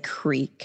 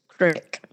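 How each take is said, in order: First: The vowel is a long 'ee' sound. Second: The vowel is a short 'i' sound. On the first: Most Southerners say it this way. "I think most Southerners say creek" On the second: People in Appalachia say it this way. "when you get to Appalachia, it's crick"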